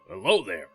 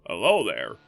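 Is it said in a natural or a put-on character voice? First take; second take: natural; put-on. First: It is said in his natural voice. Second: It is said in a put-on character voice.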